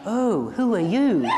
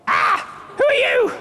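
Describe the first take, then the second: First: It sounds calm and unbothered. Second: It sounds startled and alarmed.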